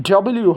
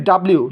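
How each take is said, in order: First: ডবল ইউ with an "o" vowel, dou-ble-you; double-U. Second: ডাব্লিউ as "dab-liu"; run-together W. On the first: Teacher giving the corrected W, double-U. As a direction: round the first vowel of ডবল ইউ. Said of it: "হবে". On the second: Teacher citing the learners' mistake, run-together W. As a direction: merge it into ডাব্লিউ. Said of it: "আমরা ভুল উচ্চারণ করি". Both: Shown as a demonstration.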